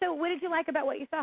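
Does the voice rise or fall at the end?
fall. The voice falls at the end.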